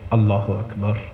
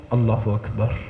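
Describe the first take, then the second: First: It is said slowly and attentively, like talking. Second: The same.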